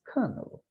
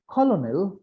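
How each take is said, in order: First: The word is said differently from its spelling. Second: The word is said letter by letter as spelled. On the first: The speaker calls it right. "but it is colonel" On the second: The speaker calls it wrong. "It is not colonel"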